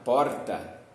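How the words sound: It is said with a São Paulo city accent. "E se eu for mais paulistano mesmo, eu posso falar porta"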